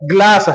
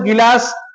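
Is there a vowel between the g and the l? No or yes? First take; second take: no; yes. First: The g and l form one cluster. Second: A vowel is inserted between g and l. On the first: The speaker calls it right. "वह शब्द है ग्लास है" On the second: The speaker calls it wrong. "यह शब्द गिलास नहीं है"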